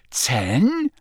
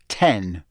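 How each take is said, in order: First: Incredulous "Ten?" swooping up; disbelief. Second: Low, final "ten" as a score; falling announcement. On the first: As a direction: question the score with a sharp rise. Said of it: "said Harry in disbelief". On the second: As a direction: drop the pitch on "ten". Score announced, then echoed in disbelief. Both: A narrator's reading.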